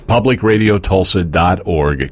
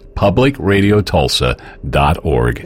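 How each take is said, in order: First: It is said at a normal pace. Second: It is said slowly and deliberately.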